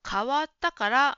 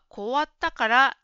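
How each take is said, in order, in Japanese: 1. 最初の音節は ka と発音します。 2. 最初の音節は ko と発音します。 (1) "変わったからが、" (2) "こわったからになっていました"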